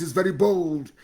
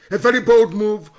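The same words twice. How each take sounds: First: Said in the usual way. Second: Bold punched, louder; emphatic loud repeat; louder praise. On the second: Real, not acted. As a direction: raise the voice on bold. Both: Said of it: "repeats the praise, louder the second time".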